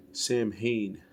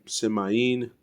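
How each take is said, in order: First: Sam Hain said as two words, SAM HAYN; literal reading. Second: Semaine said as sem-eye-EEN; alternative pronunciation. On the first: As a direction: read Sam Hain as spelled, slowly. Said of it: "how to pronounce everything". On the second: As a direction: run Semaine together with an "eye" in the middle. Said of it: "it looks more like Semaine". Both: Shown as a demonstration.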